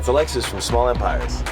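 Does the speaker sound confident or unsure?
confident. The voice sounds firm and confident. The speaker calls it right.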